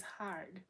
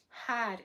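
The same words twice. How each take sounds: First: "hard" with a full American R; R pronounced. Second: "Hard" said as "hahd", no R; R dropped. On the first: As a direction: say "hard" with the R clearly sounded. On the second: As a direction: say "Hard" the Boston way, with a silent R. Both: Shown as a demonstration. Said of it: "where's the R?".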